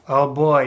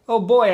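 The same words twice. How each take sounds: First: It sounds annoyed and exasperated. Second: It sounds happy and excited.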